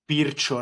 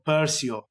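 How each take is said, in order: First: The name is said in its original way. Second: The name is said in the local way.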